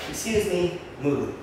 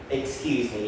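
First: Polite excuse me. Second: Said in the usual way. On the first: Shown as a demonstration. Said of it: "But not in a rude way". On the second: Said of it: "the words will say".

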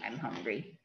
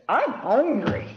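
First: Much lower and much softer, inner thought; little bear only thinks he's hungry, hushed and low; thinking to himself. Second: Higher, slow little bear voice; little bear says he's hungry, slow and high. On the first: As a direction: drop to a soft low murmur as if only thought. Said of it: "Well, actually, it's thinking". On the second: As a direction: whine it like a small hungry cub. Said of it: "And the little bear says". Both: A narrator's reading.

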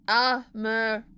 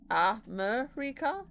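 First: Said in the usual way. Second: "America?" said slowly with a clear r, rising like a question; imitating American pronunciation. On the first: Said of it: "Do, do you guys say it like that?". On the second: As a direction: try out "America?" the way Americans say it, r sounded, drawn out. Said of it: "That sounds weird".

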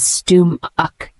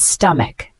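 First: Stum-uck said slowly in two separate syllables; syllable-by-syllable pronunciation. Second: Said in the usual way. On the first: Shown as a demonstration. Teacher showing learners how the word is pronounced, stum-uck slowly in two parts. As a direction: sound out stum-uck, split after the m. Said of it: "pronounced as". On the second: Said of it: "The word stomach".

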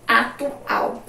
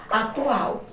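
First: "atual" split into separate syllables. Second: Said in the usual way. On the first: Shown as a demonstration. Teacher showing the last syllable, "atual" in separated syllables. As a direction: sound out "atual" in pieces.

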